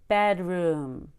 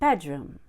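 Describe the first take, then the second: First: The second syllable gets strong, heavy energy. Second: The second syllable is relaxed and falls in pitch. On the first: The speaker calls it wrong. "too much energy put forth on the word room" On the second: The speaker calls it right. "Very relaxing. Falling down on the word room"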